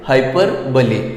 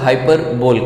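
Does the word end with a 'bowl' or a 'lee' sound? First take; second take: lee; bowl. First: The word ends with a 'lee' sound. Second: The word ends with a 'bowl' sound. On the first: The speaker calls it right. "इसका जो सही pronunciation है वो है हाइपरबली" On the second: The speaker calls it wrong. "बहुत सारे लोग इसको हाइपरबोल कहते हैं"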